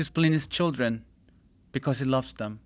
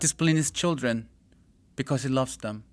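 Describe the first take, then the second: First: There is a pause before "because". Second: The same.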